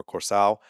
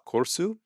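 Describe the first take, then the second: First: Curacao said as "Corso", ending in oh or ow; suggested Curacao pronunciation. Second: Curacao said as "Corsu", ending in oo; corrected Curacao pronunciation. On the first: Vlogger relaying viewers' correction, "Corso" with final o. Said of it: "people are saying it's more". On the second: Vlogger repeating the criticized way, "Corsu" ending in oo. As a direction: say "Corsu" with a final oo sound. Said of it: "got a lot of corrections". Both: Shown as a demonstration.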